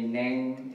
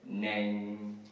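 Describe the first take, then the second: First: The word is said on a high pitch. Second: The word is said on a low pitch. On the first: It is a personal name. "do, re, neng, instead of do, re, mi, neng is my name" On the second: It means horse. "instead of do, if you said neng, re, mi, neng means horse"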